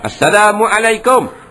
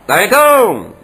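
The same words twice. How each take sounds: First: It has a glottal stop where the throat sound belongs. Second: The whole greeting is heavily distorted in sound. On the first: The greeting must still be answered. "dia tak sebutkan dengan ain, disebutkan dengan hamzah" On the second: The greeting need not be answered. "teruk benar bunyinya"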